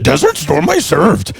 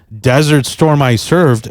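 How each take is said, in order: First: It is said in a put-on character voice. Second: It is said in his normal speaking voice.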